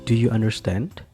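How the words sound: The pitch rises at the end. The speaker calls it right. "di ujung kalimatnya intonasinya tinggi"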